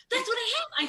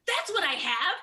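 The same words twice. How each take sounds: First: Far higher and louder, near shrieking with delight; ecstatic realization. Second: Higher and louder, a delighted discovery; excited realization. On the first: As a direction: top the first take, almost squealing. Repeats, even more worked up. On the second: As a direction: it clicks: blurt it out with glee. Sudden ADHD realization. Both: Real, not acted.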